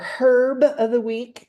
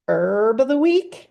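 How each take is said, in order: First: Herb is said with an English pronunciation. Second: Herb is said with an American pronunciation. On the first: "the uh, English pronunciation of that word" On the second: "as we Americans will say"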